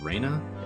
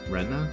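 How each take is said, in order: First: The first vowel sounds like 'ay'. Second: The first vowel sounds like 'eh'. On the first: The speaker calls it wrong. "I've been saying it as Reyna" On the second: The speaker calls it right. "I think it was R E H N A?"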